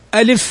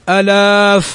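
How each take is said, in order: First: No vowel in the word is lengthened. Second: A vowel in the word is lengthened. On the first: The speaker calls it right. "حرف لا يمد أصلا" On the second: The speaker calls it wrong. "ما نقول ألاف، لا"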